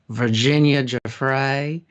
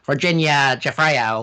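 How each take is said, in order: First: It is said in a Southern American accent. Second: It is said in an Australian accent. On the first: "That needs to be said with a southern accent" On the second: "or whatever the Australian equivalent would be"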